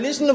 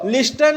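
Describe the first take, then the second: First: The t sound is left out entirely. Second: The t sound is pronounced in the middle. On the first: The speaker calls it right. "इसमें टी silent होता है" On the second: The speaker calls it wrong. "लिस्टन नहीं बोलना"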